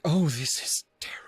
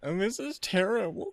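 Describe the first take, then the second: First: It sounds deeply moved and breathy. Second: It sounds like a dismissive complaint.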